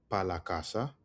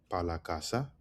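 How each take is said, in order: Both takes have the same delivery.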